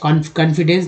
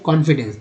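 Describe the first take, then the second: First: The first vowel is not an open 'aw' sound. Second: The first vowel is an open 'aw' sound. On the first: The speaker calls it wrong. "नहीं" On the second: The speaker calls it right. "ओ का उच्चारण यहाँ पर कौन"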